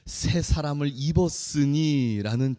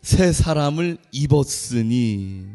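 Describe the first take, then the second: First: Slow title. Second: "새" stressed, every word drawn out; slow emphatic title. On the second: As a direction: spell out the sermon title slowly for the congregation. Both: Shown as a demonstration. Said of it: "오늘 제목이 뭐라고요?".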